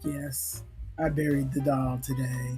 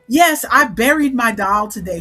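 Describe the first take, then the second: First: It is said flatly, without expression. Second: It is said gleefully, with a smile.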